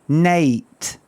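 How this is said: The vowel is a Scottish 'eh-a' sound. "with Scottish people ... they say night. It's like an eh, eh, e, a, not I, but a"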